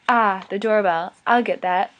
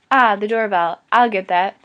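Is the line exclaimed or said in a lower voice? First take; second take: lower voice; exclaimed. First: The line is said in a lower voice. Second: The line is exclaimed with excitement.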